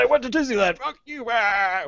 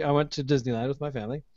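First: High, slowed hammed-up rage; hammed-up revenge boast at the phone company; mock furious high voice. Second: Said in the usual way. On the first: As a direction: spit it out like a sulking kid. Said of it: "I was so mad". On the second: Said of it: "You were so mad you went to Disneyland".

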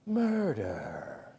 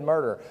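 First: Low, hushed, drawn-out true-crime narrator; TV murder-show voice. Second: Said in the usual way. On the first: Retold or imitated. Preacher mimicking murder shows for the congregation, low and ominous. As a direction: drop it deep and soft for suspense. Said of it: "That's how they say it on the shows".

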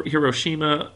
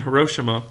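First: Hiroshima said heer-OH-shee-ma with stress on the second syllable; alternate pronunciation. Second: Hiroshima said HUR-oh-SHEE-ma with an r-coloured first syllable; common pronunciation. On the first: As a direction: say Hiroshima as hih-ROH-shih-muh, the lesser-heard way. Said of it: "Some people call it". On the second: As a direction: say Hiroshima as her-oh-SHEE-muh, the usual American way. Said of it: "I've heard it pronounced more often". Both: Shown as a demonstration.

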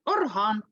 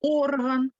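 First: Орган stressed on the final ган; stress on second syllable. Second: Орган with a stressed opening о; stress on first syllable. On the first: Teacher confirming the musical instrument, Орган stressed on its second syllable. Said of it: "наголос падає на другий склад". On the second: Teacher confirming the body part, орган stressed on its first syllable. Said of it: "Наголос падає на перший склад". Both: Shown as a demonstration.

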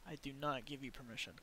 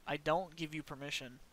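First: Not stressed, quick and soft. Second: Said in the usual way. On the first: Shown as a demonstration. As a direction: hit the word not firmly.

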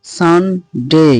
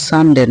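First: "সানডে" slowly split, san... dey; corrected pronunciation. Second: "সানডে" run together with short de; wrong pronunciation. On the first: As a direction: break "সানডে" in two, drawing out a gliding "day". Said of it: "এটা হবে". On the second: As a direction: say "সানডে" quickly, ending in unglided de. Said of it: "অর্থাৎ সানডে না". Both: Shown as a demonstration.

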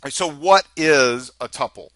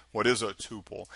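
First: "tuple" said TUP-pull; "tuple" rhyming with supple; short-U tuple. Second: "tuple" said TOO-pull; "tuple" rhyming with pupil; long-U tuple. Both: Shown as a demonstration. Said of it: "I'll probably say it both ways".

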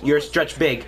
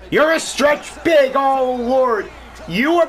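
First: Said in the usual way. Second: Slow, loud, higher celebration; excited shout. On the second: Real, not acted. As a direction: yell it as the shot drops. Celebrating the shot.

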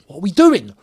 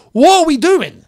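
First: Said in the usual way. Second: Much higher and louder, fed up; exasperated shout. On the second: Real, not acted. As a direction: yell it out in real disbelief. Frustrated fan repeats, louder.

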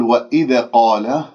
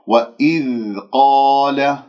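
First: وإذا قال with the ذ bounced like a qalqala stop; wrong bounced dhal. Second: وإذ قال with a flowing, unbounced ذ, slow; correct soft dhal. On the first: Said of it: "هذا خطأ". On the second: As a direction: let the ذ of وإذ flow, slowly. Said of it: "هكذا بهذه الطريقة". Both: Shown as a demonstration.

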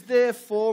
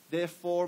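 First: Therefore called out high and loud, like a proclamation; loud proclaiming read. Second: Said in the usual way. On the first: Shown as a demonstration. Pastor reading scripture to the congregation, loud proclaiming. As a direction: belt out Therefore to open the verse. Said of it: "He says". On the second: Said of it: "What's the third word right there?".

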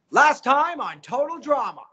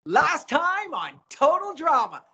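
First: Said in the usual way. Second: High, slow host intro through a smile; smiling intro. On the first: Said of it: "So I went from this". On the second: Shown as a demonstration. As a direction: smile hard and stretch out the show title. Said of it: "Can you just smile when you say it?".

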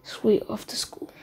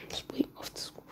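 First: Understated, expressionless warning; emotionless threat. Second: Emotionless threat, nearly whispered; very soft, expressionless repeat. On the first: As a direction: say the threat blankly, giving nothing away. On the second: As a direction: repeat the warning under your breath, blankly. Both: Retold or imitated. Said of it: "with no emotion on his face and says".

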